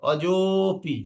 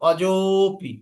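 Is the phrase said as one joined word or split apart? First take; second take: joined; joined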